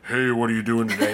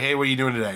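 First: It is said in a very deep voice. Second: It is said in a normal voice.

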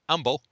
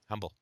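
First: It is said in a Cockney accent. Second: It is said in a plain accent.

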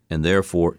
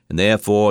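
First: It is said in the speaker's own voice. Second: It is said in an imitated, put-on voice.

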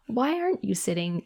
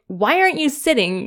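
First: It sounds gentle and curious. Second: It sounds annoyed and accusing.

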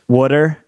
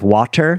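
First: It is said with a Philadelphia-area accent. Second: It is said with a general American accent. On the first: "I'm from the Philadelphia area, so I say water" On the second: "instead of water"

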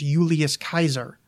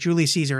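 First: The name uses the ancient Latin pronunciation. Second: The name uses the modern English pronunciation. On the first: This is how the ancients said it. "the way they would have said it, and the proper way to say it" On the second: This is how people say it today. "is the way that we say that guy's name"

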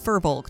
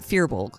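First: The first syllable sounds like 'fur'. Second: The first syllable sounds like 'fear'. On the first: The speaker calls it right. "Adventure Zone pronounces it correctly. It's firbolg" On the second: The speaker calls it wrong. "not fearbolg"

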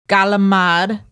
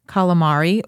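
First: The word is clipped in a New York accent. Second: The word is said plainly with all its syllables.

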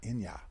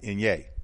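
First: The word ends with an 'ah' sound. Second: The word ends with an 'eh' sound. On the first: The speaker calls it right. "it's like my name, Yah" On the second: The speaker calls it wrong. "not Inye. That's how I was pronouncing it"

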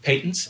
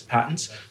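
First: The word is said the British way. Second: The word is said the American way.

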